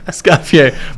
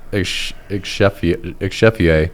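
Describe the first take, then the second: First: The middle of the name sounds like 'coff'. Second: The middle of the name sounds like 'chef'. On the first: The speaker calls it right. "I'm glad you knew the pronunciation" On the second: The speaker calls it wrong. "I thought it was Exchefier"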